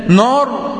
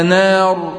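First: نار thick and backed, "nawr", higher in pitch; wrong heavy nun. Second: نار thin and fronted, "nær", drawn out; light nun. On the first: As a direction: show the faulty heavy نار. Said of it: "ولا نار؟". (نار بنون مفخمة خطأً) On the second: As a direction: stretch a light vowel in نار. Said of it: "النون نا". (نار بنون مرققة) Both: Shown as a demonstration.

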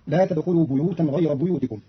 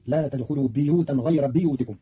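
First: Said in the usual way. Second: بيوتا and بيوتكم with kasra on the ب, biyutan; Qalun reading. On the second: Shown as a demonstration. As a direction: say بيوتكم as biyutikum, not buyutikum. (بيوتا بكسر الباء) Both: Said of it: "بكسر الباء".

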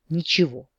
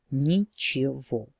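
First: Said in the usual way. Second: Slow, drawn-out word of resignation; bleak finality. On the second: A narrator's reading. Heroine gives up her dream of flying, bleakly resigned. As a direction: stretch out each syllable, bleakly.

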